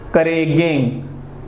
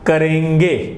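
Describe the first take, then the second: First: The nasal sound comes at the very end. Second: The nasal comes mid-word; it ends in 'e'. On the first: The speaker calls it wrong. "करेगेंग बिल्कुल अशुद्ध होगा" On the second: The speaker calls it right. "ये शुद्ध कैसा होगा? करेंगे"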